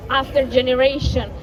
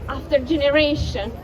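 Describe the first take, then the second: No difference in how they are said.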